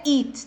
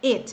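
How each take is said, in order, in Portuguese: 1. A vogal é longa e tensa, como em eat. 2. A vogal é curta e relaxada. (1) "não é it" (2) "Esse it"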